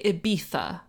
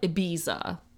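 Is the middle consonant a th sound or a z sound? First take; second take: th; z. First: The middle consonant is a th sound. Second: The middle consonant is a z sound. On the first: The speaker calls it right. "the sound is pronounced as a th. Like, apparently it's actually Ibiza" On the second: The speaker calls it wrong. "not Ibiza, like people sing about"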